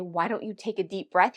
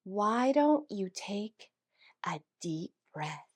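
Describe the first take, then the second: First: Said in the usual way. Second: Slow, trailing into a soft whisper; maddeningly calm. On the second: Retold or imitated. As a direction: draw it out slowly, breathing the last words. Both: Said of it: "In the time it took him to say".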